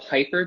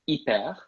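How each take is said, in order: First: The word is pronounced the English way. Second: The word is pronounced the French way. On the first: "two words in English that we use in French" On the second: "we pronounce them a little differently. So hyper becomes hyper"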